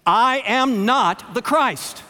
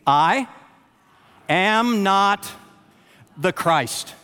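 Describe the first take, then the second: First: Slow, emphatic, higher and louder declaration; committed, deliberate preaching declaration; with commitment. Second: Said in the usual way. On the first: Shown as a demonstration. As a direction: proclaim every word like you mean it. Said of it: "say it with commitment". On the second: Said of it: "you said that with cooperation".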